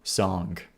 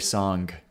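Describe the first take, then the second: The two takes are said the same way.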